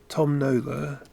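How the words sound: It is said in a southeast English accent. The name rhymes with tombola. "in my sort of south, southeast English accent"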